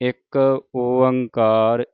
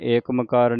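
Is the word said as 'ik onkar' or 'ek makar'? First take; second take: ik onkar; ek makar. First: It is pronounced 'ik onkar'. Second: It is pronounced 'ek makar'. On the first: The speaker calls it right. "ਇਸ ਤਰ੍ਹਾਂ ਬੋਲਣਾ ਹੈ" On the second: The speaker calls it wrong. "ਏਕ ਮਕਾਰ ਨਹੀਂ ਕਹਿਣਾ"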